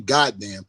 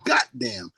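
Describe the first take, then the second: First: The first syllable ends with a d sound. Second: The first syllable ends with a t sound. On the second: "we say goddamn, G O T"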